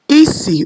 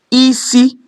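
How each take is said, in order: First: The first syllable is high, the second low. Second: Both syllables are on a high tone. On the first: It means smell. "which is high, low" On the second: It means head. "head, which is high, high"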